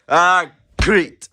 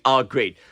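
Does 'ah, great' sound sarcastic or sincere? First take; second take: sincere; sarcastic. First: It sounds sincere and mildly relieved. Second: It sounds sarcastic and displeased. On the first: A bad situation improved slightly. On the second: The speaker is actually unhappy.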